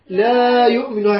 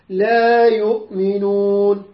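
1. المد مو حركتين. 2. المد حركتين. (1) "مو" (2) "حركتين الألف حركتين"

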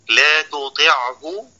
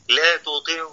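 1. تُنطق العين بوضوح قبل الهاء. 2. العين مدغمة في الهاء التي بعدها.

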